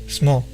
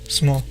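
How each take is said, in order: First: The vowel after the S is dropped. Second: The same.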